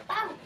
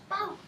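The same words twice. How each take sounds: No difference in how they are said.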